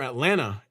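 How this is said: Atlanta is pronounced the way locals say it.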